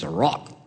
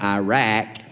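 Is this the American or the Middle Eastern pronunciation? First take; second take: Middle Eastern; American. First: It is said the Middle Eastern way. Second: It is said the usual American way. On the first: "in the Middle East ... it's Iraq" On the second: "it's not Iraq"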